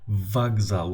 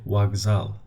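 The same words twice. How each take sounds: First: The word begins with a v sound. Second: The word begins with a w sound. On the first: The speaker calls it wrong. "we don't say vokzal" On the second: The speaker calls it right. "we say vokzal. W. It's not V, it's a W"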